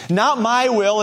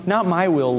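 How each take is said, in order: First: Insistent Not my will; stress on Not. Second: Said in the usual way. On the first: Shown as a demonstration. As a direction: press the word Not in "Not my will".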